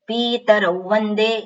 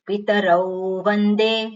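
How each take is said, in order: First: The first vowel 'pi' is drawn out long. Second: The first vowel 'pi' is kept short. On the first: The speaker calls it wrong. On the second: The speaker calls it right.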